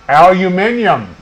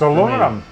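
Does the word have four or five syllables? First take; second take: five; four. First: The word is said with five syllables. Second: The word is said with four syllables. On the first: It is the form used outside the United States. "for our Canadian viewers" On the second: It is the form used in the United States. "It's aluminum"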